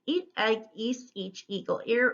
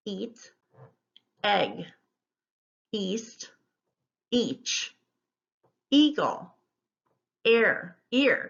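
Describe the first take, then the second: First: Fluency race with no pauses; quick word drill. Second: Single words with a pause after each; spaced-out teacher's word list; careful word modelling. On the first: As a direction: list rattled off back to back. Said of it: "see if you can say 'em quickly". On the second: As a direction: read the list slowly, word by word. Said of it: "I'll go through it once". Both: Shown as a demonstration.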